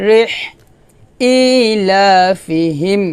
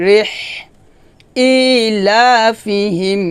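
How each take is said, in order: The two takes are said the same way.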